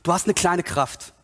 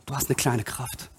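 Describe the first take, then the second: First: Said in the usual way. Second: Low, hushed scripture quote; quiet, pitched-down echo; soft repeat. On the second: Acted. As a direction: let it sink in softly. Softer repeat of the quotation.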